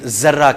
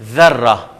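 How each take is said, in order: First: The first sound is a plain z. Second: The first sound is a th-like sound. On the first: The speaker calls it wrong. "हम उर्दू में भी ज़र्रा कहते हैं लेकिन ज़र्रा कहते हैं" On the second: The speaker calls it right. "जबकि लफ्ज़ है ज़र्रा"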